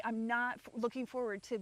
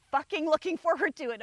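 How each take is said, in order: First: Said in the usual way. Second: Louder and higher on fucking looking forward; emphatic. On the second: Real, not acted. To viewers, dreading the move back, emphatic outburst. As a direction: spit out the dread of it.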